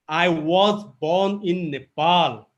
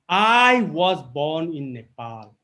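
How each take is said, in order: First: The emphasis falls on the word 'was'. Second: The emphasis falls on the word 'I'. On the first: Someone doubted it happened. "how dare you imply that I wasn't?" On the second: Someone else was not born here. "if I give emphasis on I speaking this sentence"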